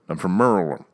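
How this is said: Maryland is squeezed to sound like Merlin. "You say Merlin"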